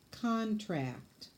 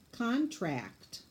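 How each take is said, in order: Both takes have the same delivery.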